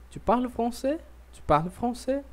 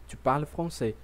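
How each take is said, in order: First: "Tu parles français" pitched high, rising on "français"; question intonation. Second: "Tu parles français" as a plain statement, falling at the end; statement intonation. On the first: Teacher showing how intonation alone makes a question, high rising tune on "français". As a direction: ask it with the voice climbing to the end of "français". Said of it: "se eu vou perguntar". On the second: Teacher showing learners the affirmative, stated with falling tune. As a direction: let "français" drop, no question in it. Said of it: "se eu for afirmar". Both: Shown as a demonstration.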